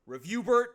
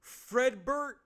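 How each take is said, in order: First: A sudden, much higher and much louder bellow of the name; angry father yelling his son's real name; father's shout. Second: A sudden, much higher and louder bellow of the son's name; furious father calling his son; father's shout. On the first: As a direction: boom out the name like a furious dad. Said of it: "your father shouts". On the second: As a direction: yell his name across the house like an angry dad. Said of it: "father sh-, shouts". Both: Acted.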